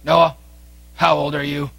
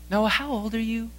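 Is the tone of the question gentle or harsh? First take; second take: harsh; gentle. First: The question is asked in a harsh, off-putting tone. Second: The question is asked in a gentle, coaxing tone. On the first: The child is scared off from answering. The speaker calls it wrong. "She would probably shy away from you" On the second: The child is encouraged to answer. The speaker calls it right. "our tone of voice is extremely important. ... Drawing her out"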